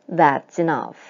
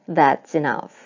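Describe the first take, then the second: Both takes have the same delivery.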